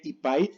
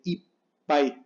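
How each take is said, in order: First: Said in the usual way. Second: Ipai with a held stop before "pai"; slow ipai, doubled P as a gap; pause in ipai. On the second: Shown as a demonstration. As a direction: break ipai into "ip", silence, "pai". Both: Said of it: "se pronuncia con una pausa".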